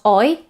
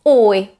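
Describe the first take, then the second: First: "oi" starting open, rising at the end; too-open diphthong. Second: "oi" starting on a close aw, falling; close-start diphthong. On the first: Teacher showing the oi to avoid, open start. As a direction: say "oi" with an open o, as the mistake. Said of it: "it's not oi". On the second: Teacher showing it's quite close, close-start diphthong. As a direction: say "oi" from a rounded, closed O. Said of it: "It's quite close". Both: Shown as a demonstration.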